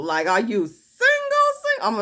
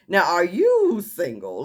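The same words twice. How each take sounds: First: "single" punched and drawn out, then repeated; stress on SINGLE. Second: "you" drawn out in a slow question; stress on YOU. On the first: Host pressing her on whether she's single, heavy stress on "single". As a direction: hit "single" hard and slow, twice. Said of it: "emphasizing the single". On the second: Host turning the question to her, stress on "you". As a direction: lean slowly on "you". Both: Retold or imitated.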